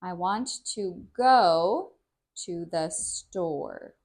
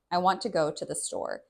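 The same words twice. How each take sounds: First: Slow, emphatic, drawn-out "go" and "store"; slow teaching speech. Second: Quick, casual connected speech; normal speaking pace. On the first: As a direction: speak slowly for learners, emphasizing every sound. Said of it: "When I'm teaching, I speak slower". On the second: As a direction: say it fast and unemphatic, as in everyday talk. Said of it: "if I was just speaking normally". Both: Shown as a demonstration.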